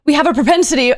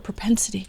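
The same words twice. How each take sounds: First: "propensity" said proudly, louder and higher; "We have a propensity" announced with pride; said right. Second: Quiet unvoiced "Propensity" practice; whispered try. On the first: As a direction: nail "propensity" with a triumphant ring. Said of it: "I said it right". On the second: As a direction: whisper "Propensity" to herself, testing the sound. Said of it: "What is that word?". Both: Shown as a demonstration.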